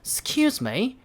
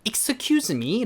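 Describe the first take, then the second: First: The first vowel is nearly dropped. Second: The first vowel is fully pronounced. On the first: The speaker calls it right. "이건 살짝 그냥 하는 듯 마는 듯 하는 그런 느낌으로" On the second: The speaker calls it wrong. "라고 이제 하시면 안 되고"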